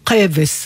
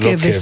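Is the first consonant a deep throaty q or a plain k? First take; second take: throaty q; plain k. First: It starts with a deep, throaty q sound. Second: It starts with a plain, light k sound. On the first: The speaker calls it right. "להחזיר את המבטא העיראקי, הנפלא שלפחות הם כבס" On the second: The speaker calls it wrong. "כדי שאנשים ידעו שזה לא כבס"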